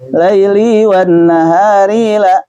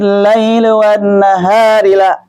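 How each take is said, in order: First: The word endings are stretched out melodically. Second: Each word runs straight into the next. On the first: The speaker calls it wrong. "kebanyakan gitu" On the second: The speaker calls it right. "masuk-masuk terus"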